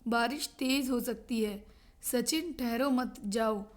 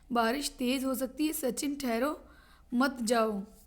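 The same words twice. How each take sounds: First: The pause comes after 'mat', before 'jao'. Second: The pause comes after 'thahro', before 'mat'.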